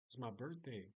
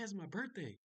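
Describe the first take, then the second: First: It is said casually, without excitement. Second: It is said with matching enthusiasm.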